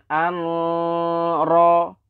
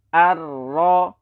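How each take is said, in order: First: A separate n sound is heard before r. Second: The n merges fully into the r sound. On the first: The speaker calls it wrong. "bukan an-ra" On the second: The speaker calls it right. "cukup ar-ra"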